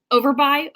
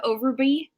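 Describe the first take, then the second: First: "Overby" with the last syllable as "buy"; "Overby" ending to rhyme with "eye"; name ending in buy. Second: "Overby" with the last syllable as "bee"; "Overby" ending in a long ee; name ending in bee. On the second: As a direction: say "Overby" to rhyme with "free". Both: Shown as a demonstration. Tries two readings of a name.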